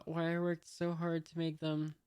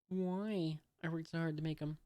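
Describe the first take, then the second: First: Said in the usual way. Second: "'em" with the th dropped; reduced "them". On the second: Shown as a demonstration. Reader corrects the little girl's line, "'em" without its th. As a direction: say "'em" as a casual, clipped-off "them".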